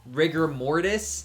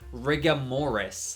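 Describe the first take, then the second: First: The first word ends with a clear r sound. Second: The first word ends in an a sound. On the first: The speaker calls it right. "which is rigor mortis" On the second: The speaker calls it wrong. "she said it incorrectly and she ended up saying rigamoris"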